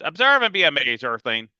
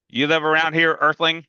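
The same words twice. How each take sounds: First: Put-on grand announcer kid. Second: Higher, louder playful echo; echoing Freak's word. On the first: Freak showing off his bird to the big kid, grandly. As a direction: announce it like a showman. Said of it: "and he goes". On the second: Acted. Big kid teasing Freak with his word, playfully. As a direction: toss his own word back at him. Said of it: "I go".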